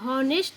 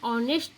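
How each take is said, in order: First: The word starts with an h sound. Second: The word starts directly with a vowel. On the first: The speaker calls it wrong. "हम हॉनेस्ट नहीं बोलते हैं" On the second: The speaker calls it right. "हम ऑनेस्ट बोलते हैं"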